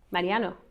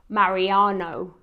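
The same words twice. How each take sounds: First: The name is said with a Spanish accent. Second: The name is said with an English accent. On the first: "mi hijo se llama Mariano" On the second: "si hablo con mi familia inglesa o si ellos me hablan de Mariano, dicen Mariano"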